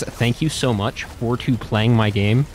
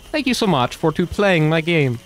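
First: Slow Mario impression. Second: Mario impression. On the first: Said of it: "And he says". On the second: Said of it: "Mario would look at the camera and go".

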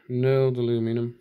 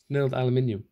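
First: "aluminum" said the American way, a-LOO-mi-num; American pronunciation. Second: "aluminium" said the British way, al-yoo-MIN-ee-um; British pronunciation. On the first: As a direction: say "aluminum" in four syllables, stressing LOO. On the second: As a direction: say "aluminium" with stress on MIN and an extra "ee". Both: Real, not acted. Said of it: "Why did I go all American?".

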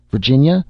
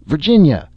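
First: Loud, high call with a rising end; a first desperate shout of her name, rising; hopeless calling. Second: Even higher, louder call falling away; a last despairing cry of her name, falling; hopeless calling. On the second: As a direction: shout her name again, giving up. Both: A narrator's reading. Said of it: "he called out in a hopeless voice".

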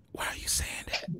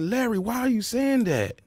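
First: Whispered, no voice at all; urgent whisper. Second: Said in the usual way. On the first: Retold or imitated. Pleading with Larry on live air, whispered. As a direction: hush it like the mic is still live. Begging Larry to stop talking.

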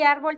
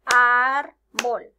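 First: Said in the usual way. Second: Árbol as ár - bol, loud and slow; árbol split in two, hard loud ár first; syllable by syllable. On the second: Shown as a demonstration. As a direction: clap out árbol in two beats. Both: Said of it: "árbol tiene dos sílabas".

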